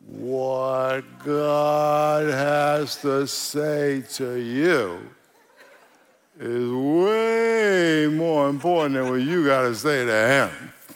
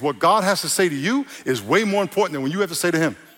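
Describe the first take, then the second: First: It is said slowly. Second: It is said at normal speed.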